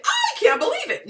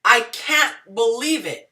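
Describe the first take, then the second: First: Squeaky, much higher "I can't believe it" with the top on "I"; wide-eyed high-pitched disbelief; amazed disbelief. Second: Firm falling "I can't believe it" leaning on "can't", at normal pitch; flat, unimpressed disbelief; scornful disbelief. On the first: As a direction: gasp it out like genuine shock, pitched way up. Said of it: "You say". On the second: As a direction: say it like you think she's playing dumb. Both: Shown as a demonstration.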